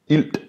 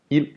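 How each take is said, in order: First: A D sound is heard at the end. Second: No D sound is heard at the end. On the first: The speaker calls it wrong. "If I were to pronounce the D, ild would be" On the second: The speaker calls it right. "is pronounced without the D"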